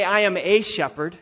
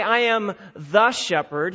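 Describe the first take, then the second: First: "a" said as a stressed "ay". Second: "the" punched and set apart before "shepherd"; stress on THE. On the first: Preacher contrasting what Jesus doesn't say, stressed "a". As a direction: lean on "a" as the rejected word. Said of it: "He doesn't say". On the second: Preacher contrasting what Jesus doesn't say, stressed "the". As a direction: lean hard on "the" as the rejected word. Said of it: "he doesn't say". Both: Shown as a demonstration.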